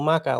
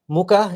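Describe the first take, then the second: First: The first vowel is a short 'uh' sound. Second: The first vowel is a long 'oo' sound. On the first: "mucker like an Aussie" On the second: "M O O K, A, A"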